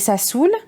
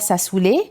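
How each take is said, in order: First: The name ends on the 'l' sound. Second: The name ends with an extra 'ay' vowel. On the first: The speaker calls it right. "c'est Sassoul" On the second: The speaker calls it wrong. "C'est pas Sassoulé"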